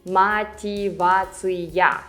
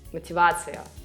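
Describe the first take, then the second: First: All five syllables are pronounced clearly. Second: It is fast, reduced almost to two syllables. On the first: "five syllables" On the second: "when I pronounce it faster"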